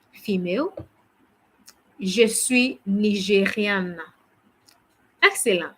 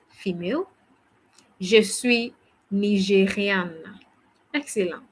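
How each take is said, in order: Both takes have the same delivery.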